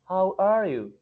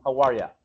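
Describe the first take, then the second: First: It is said slowly, with a full 'you'. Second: It is said quickly, with 'you' reduced to 'ya'. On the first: "Ellos no van a decir a usted" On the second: "Van a hablar rápido, va a sonar como un how are ya"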